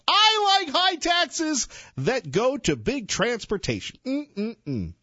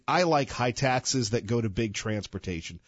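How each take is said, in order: First: It is read with a mocking, exaggerated inflection. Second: It is read flatly, like a poll option.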